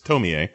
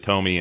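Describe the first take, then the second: First: The name is said with a Japanese pronunciation. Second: The name is said with an Americanized pronunciation. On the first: The speaker calls it right. "but it's Tomie" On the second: The speaker calls it wrong. "I always pronounced it Tomie until I watched the movie. ... It's the Americanization of her name"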